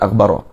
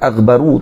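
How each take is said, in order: First: The word ends with an 'a' vowel. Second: The word ends with a 'u' vowel. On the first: The word describes an object in the accusative case. The speaker calls it wrong. "tak baca dengan aghbara" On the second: The word describes a subject in the nominative case. The speaker calls it right. "Aghbar pun baca dengan aghbaru"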